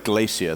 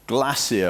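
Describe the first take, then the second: First: Glacier is said in an American way. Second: Glacier is said in a British way.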